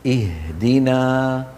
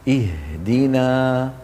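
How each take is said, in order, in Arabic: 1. صوت الهاء واضح وثابت. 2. صوت الهاء واضح وثابت.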